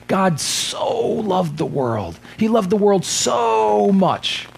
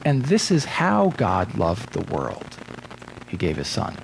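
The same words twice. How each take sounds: First: Slow, higher, with loved leaned on as "so much"; intensifier reading. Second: Slow, even, explanatory, with "this is how" carrying the weight; "in this manner" reading. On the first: Preacher shows the common misreading to his congregation, slow and emphatic. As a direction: read "God so loved the world" as if so means so much. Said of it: "it's like reading it would be like".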